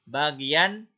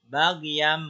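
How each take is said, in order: First: The word ends with an n sound. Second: The word ends with an m sound.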